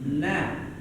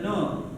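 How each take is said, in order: First: The vowel is an open A sound. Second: The vowel is a rounded O sound. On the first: The speaker calls it right. "harokatnya fathah na" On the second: The speaker calls it wrong. "bukan no"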